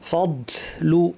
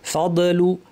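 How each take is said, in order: First: Air escapes audibly on the d sound. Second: The d sound has an echoing bounce. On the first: "অনেকের বাতাস বের হয়ে যায়" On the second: "কলকলা করে ভুলে বলেন"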